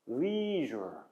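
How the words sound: It has a long vowel and a soft zh sound. "미국 사람이 이걸 발음하게 되면 이 모음 부분의 발음부터가 좀 다릅니다"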